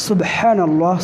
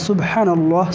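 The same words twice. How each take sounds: No difference in how they are said.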